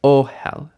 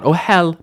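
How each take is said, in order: First: Ohel with a long, strong first syllable; weight on the O of ohel, light HEL; initial stress. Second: Ohel with HEL raised and loud; wrong final stress. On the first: Teacher correcting for learners, initial stress on ohel. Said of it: "initial stress". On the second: Teacher showing the error to avoid, final stress on ohel. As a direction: push the second syllable of ohel up high. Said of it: "not ohel". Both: Shown as a demonstration.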